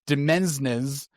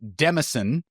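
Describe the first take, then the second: First: The word is said as 'demensnes' with s sounds. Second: The word is said as 'demison' with an s. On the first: "read it as Demensnes, uh, and that's also incorrect" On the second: "heard this as Demison, and that's incorrect"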